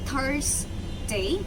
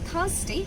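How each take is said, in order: First: The first syllable has a clear r sound. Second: The first syllable has no r sound. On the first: "এবার আমরা আরটাকে নিয়ে বলবো" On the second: "একটু আগে আমরা বলেছিলাম শুধু"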